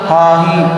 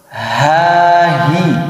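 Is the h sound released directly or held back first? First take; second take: directly; held back. First: The h sound is released directly without holding. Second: The h sound is held back before release. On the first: The speaker calls it wrong. "jangan langsung" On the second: The speaker calls it right. "ditahan terlebih dahulu"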